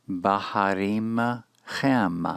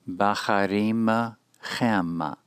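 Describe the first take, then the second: The two takes are said the same way.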